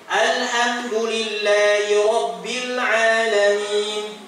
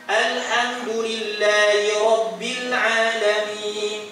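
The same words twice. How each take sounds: No difference in how they are said.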